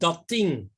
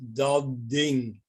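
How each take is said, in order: First: The consonant joining the words is voiceless, like t. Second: The consonant joining the words is voiced, like d. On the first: The second word adapts to the first word. "you get the reverse" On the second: The first word adapts to the next word. "It's voiced"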